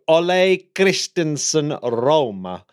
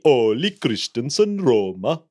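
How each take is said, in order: First: The name is said with an Italian-sounding accent. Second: The name is said with a Danish-sounding accent. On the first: The speaker calls it wrong. "why why did you say it as if as if he was Italian?" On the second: The speaker calls it right. "it should be"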